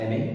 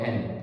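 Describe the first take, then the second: First: The name is said with two syllables. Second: The name is said with one syllable. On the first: "you can pronounce it as एने" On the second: "you can even pronounce it as एन"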